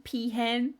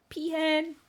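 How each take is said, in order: First: Peahen with a questioning rise; rising peahen. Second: Peahen squealed much higher, falling. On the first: Streamer tries Peahen as her name, rising. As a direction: try Peahen out on a lifted tone. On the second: Streamer repeats Peahen as her name, squealing. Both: Real, not acted. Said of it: "I want that to be like my name".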